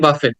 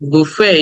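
First: The word ends with a clear t sound. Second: The word ends without a t sound. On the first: The speaker calls it wrong. "অনেকে উচ্চারণ করে বাফেট, কিন্তু উচ্চারণটা বাফেট না" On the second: The speaker calls it right. "the word should be pronounce like বুফে"

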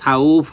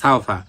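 First: The word stops with the vowel stretched out. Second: The word flows on without the vowel stretched. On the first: The reader stops on this word. "যদি আমরা এখানে মানে টানতে চাই তখন সাউফ হবে ... তখন টান হবে।" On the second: The reader continues without stopping. "আমরা যদি একবারে পড়ে যাই তাহলে লিন হবে, তখন টান হবে না।"

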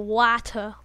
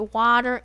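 First: It is said in a British accent. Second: It is said in an American accent.

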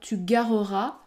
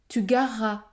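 First: The middle e is pronounced between the two r sounds. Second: The e is dropped, giving one long r sound. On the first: The speaker calls it wrong. "On ne va pas dire tu gareras" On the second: The speaker calls it right. "Le E disparaît... je prononce un R long"

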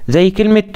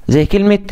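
No difference in how they are said.

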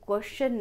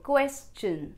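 First: The ending sounds like 'shun'. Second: The ending sounds like 'chun'. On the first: The speaker calls it wrong. "पर ये question नहीं" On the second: The speaker calls it right. "ये शन नहीं बल्कि चन sound produce करेगा"

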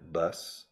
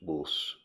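First: It is said in an American accent. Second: It is said in a Midlands or Yorkshire accent. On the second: "the people in the Midlands, in the United Kingdom, and in Yorkshire"

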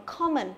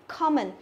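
Both takes have the same delivery.

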